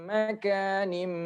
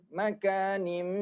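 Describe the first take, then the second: The two takes are said the same way.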